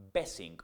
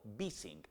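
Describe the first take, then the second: First: "besing" with a Spanish "be" as first syllable; Spanish-style reading. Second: "bising" with "bee" as in "to be"; English-style reading. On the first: Teacher naming the memory formula to learners, "besing" said the Spanish way. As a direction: say "besing" slowly, opening on "beh". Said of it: "Es lo que llamamos el". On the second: Teacher giving learners the formula's other name, "bising" said the English way. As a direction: say "bising" slowly, opening on "bee". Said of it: "be del verbo to be". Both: Shown as a demonstration.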